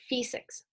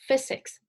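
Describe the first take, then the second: First: It has a long, Cantonese-style vowel. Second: It has a short English vowel.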